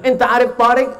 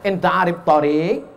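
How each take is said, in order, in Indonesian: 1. Vokal panjang ada di suku kata pertama. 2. Vokal panjang ada di suku kata kedua. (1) "Gara-gara alifnya dia pasang di tengah" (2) "padahal yang betul mestinya dia tanya"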